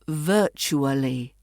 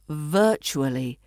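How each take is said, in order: Both takes have the same delivery.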